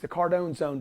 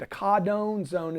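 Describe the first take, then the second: First: It is said in a plain American accent. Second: It is said in a put-on London accent.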